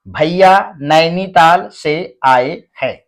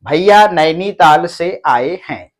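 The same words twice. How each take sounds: First: The sentence is read at a moderate speed. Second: The sentence is read at a quicker speed. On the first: "अब आपको थोड़ा जल्दी" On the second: "और थोड़ा जल्दी"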